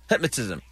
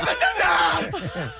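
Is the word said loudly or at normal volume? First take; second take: normal; loudly. First: It is said at normal volume. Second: It is said loudly, almost shouted.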